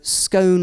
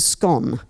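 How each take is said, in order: First: The vowel rhymes with cone. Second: The vowel rhymes with gone.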